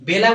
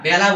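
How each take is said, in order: First: The first vowel is a plain e sound. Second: The first vowel is an open a sound. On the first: The speaker calls it wrong. "বেলা বলি না" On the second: The speaker calls it right. "বেলা বলি"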